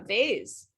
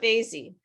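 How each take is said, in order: First: The word ends sharply on its final consonant. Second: An extra vowel is added after the final consonant. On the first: The speaker calls it right. "you have to stop" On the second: The speaker calls it wrong. "It's not vasy"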